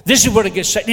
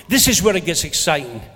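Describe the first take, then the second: First: "This is where it gets exciting" repeated with more push, rising at the end; louder second take. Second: Said in the usual way. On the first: Shown as a demonstration. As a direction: say it again, building excitement. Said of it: "repeated louder, rising". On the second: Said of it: "repeated with more force".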